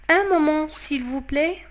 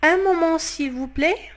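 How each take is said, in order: Both takes have the same delivery.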